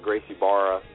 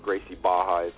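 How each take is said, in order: First: The r in the second word is sounded. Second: The r in the second word is silent.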